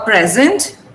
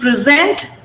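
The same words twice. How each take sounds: First: The stress is on the first syllable. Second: The stress is on the second syllable. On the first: It is used as a noun. "A present is something that you receive as a gift" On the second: It is used as a verb. "Present is to give something"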